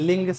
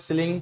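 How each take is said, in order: First: The word begins without any s sound. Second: The word begins with an audible s sound. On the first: This is how the word is actually said. The speaker calls it right. "लेकिन लिंग साइक्रोमीटर से बोला जाता है" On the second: This is how the word is spelled. The speaker calls it wrong. "कहने के लिए लिखा हुआ है सिलिंग"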